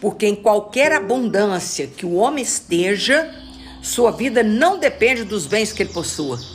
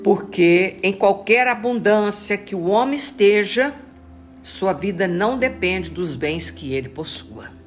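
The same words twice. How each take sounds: First: It is read at normal speed. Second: It is read slowly, phrase by phrase.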